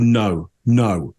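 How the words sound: The pitch falls firmly at the end. The speaker definitely does not know the person. "A downward intonation on that. No, that's that's command tonality. That's very definitive"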